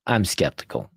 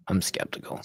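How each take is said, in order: First: Said in the usual way. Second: Whispered aside. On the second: Shown as a demonstration. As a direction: drop to a whisper on the repeat. Repeated, second take whispered.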